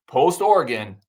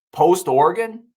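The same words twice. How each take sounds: First: Said in the usual way. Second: Louder, higher first "post Oregon"; emphatic. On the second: Real, not acted. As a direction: hit "post Oregon" hard to make the point.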